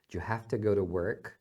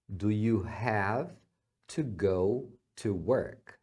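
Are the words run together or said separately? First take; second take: run together; separately. First: The words are run together quickly. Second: The words are said separately and clearly.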